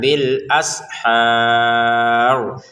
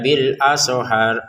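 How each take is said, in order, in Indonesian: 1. Tidak ada vokal tambahan yang disisipkan di dalam kata. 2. Ada vokal tambahan yang disisipkan di dalam kata.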